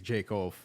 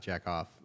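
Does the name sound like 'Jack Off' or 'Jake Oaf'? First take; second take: Jake Oaf; Jack Off. First: The name is said as two careful syllables. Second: The name is said quickly, sounding like 'jack off'. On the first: The speaker calls it right. "I think it's Jake Oaf" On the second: The speaker calls it wrong. "If I read this fast, it sounds funny"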